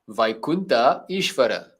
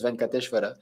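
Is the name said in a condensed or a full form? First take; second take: full; condensed. First: The name is said in full as two parts. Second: The name is said in a short, condensed form. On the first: The speaker calls it right. "it's Vaikunta Ishvara" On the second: The speaker calls it wrong. "Venkateshwara is actually a wrong pronunciation"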